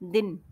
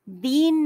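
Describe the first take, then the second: First: The vowel is clipped short and quick. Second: The vowel is drawn out long. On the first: The speaker calls it right. "जल्दी से बोल रहे हैं हम, झटके से बोल रहे हैं" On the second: The speaker calls it wrong. "दीन नहीं"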